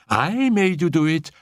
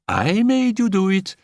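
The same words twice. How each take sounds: First: Gleeful cry. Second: Even higher, louder crow with stress on made; louder gleeful cry. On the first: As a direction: crow it while dancing about. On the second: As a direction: push it up further in triumph. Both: A narrator's reading. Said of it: "cried Annette".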